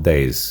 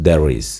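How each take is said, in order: Both takes have the same delivery.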